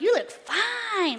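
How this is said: It is said warmly, with appreciative emphasis. The look is genuinely attractive. The speaker calls it right. "like that. That's different. Now, that sounds encouraging"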